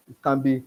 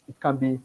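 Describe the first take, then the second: No difference in how they are said.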